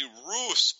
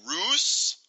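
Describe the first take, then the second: First: "Rousse" as one syllable, silent final e; simple French pronunciation. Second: "Rousse" drawn out with a high, questioning lift; unsure French attempt. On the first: Shown as a demonstration. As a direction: say "Rousse" plainly, like "roos". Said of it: "he just says it's simply". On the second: Real, not acted. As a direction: try "Rousse" as a doubtful guess, pitched up. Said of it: "I don't know".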